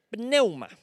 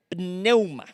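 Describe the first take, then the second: First: Said in the usual way. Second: Pneuma said as neuma, stress on the E; careful Greek word. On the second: Shown as a demonstration. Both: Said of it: "con acento en la E".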